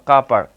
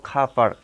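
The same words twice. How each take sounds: First: কা পার্ক said with a plain k and a long open a, no r sound; British car park. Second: খা পার্ক said with no r sound in car and an aspirated kh, like kha park; British car park. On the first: Teacher giving students the second r-less way to say car park. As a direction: say কা পার্ক as kaa park, the r dropped. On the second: Teacher showing students the r-less British car park. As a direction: say খা পার্ক dropping the r, breathy kh at the start. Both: Shown as a demonstration. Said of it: "কার না বলে আমরা বলবো".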